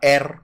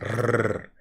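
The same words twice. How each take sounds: First: The R is made in the throat. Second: The R is trilled with the tongue tip. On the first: The speaker calls it wrong. "C'est pas R comme en français" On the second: The speaker calls it right. "Vous roulez la langue"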